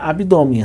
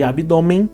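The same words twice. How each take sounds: First: The final syllable ends without nasal n sound. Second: The final syllable keeps a nasal n sound. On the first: "Ele perde na pronúncia o N" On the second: "ele perde esse caráter nasal e ele também perde o N"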